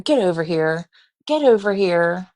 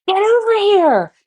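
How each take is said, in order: First: Casual, unhurried call to a dog; mock-calm call, no alarm at all. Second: High, loud, frantic holler; panicked shouted command; urgent yell. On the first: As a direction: imitate someone calling a dog with no urgency. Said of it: "Very calm, not like the dog is about to take my life". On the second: Retold or imitated. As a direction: yell it in alarm, reenacting a dog attack. Acted urgent yell, against calm take.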